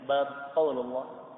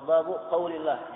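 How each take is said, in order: First: Bab ends with no vowel at all. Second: Bab ends in a short u vowel. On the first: The heading word is left uninflected. "Bab disukun, dimatikan" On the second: The two words form a possessive construction. "ba-nya di dhammah"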